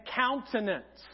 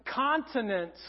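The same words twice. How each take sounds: First: Countenance with "coun" as in count; pronouncing countenance. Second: Continence with a short "kon" first syllable; pronouncing continence. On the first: Pastor giving the intended word, countenance pronounced "coun". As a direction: say "countenance" slowly, opening on "coun". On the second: Pastor contrasting the word he sang by mistake, continence pronounced "kon". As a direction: say "continence" distinctly, opening on "kon". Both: Shown as a demonstration. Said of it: "a big difference bet-, between the word".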